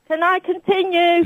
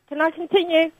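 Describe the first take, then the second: First: It is said loudly and clearly. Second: It is said quietly, mumbled.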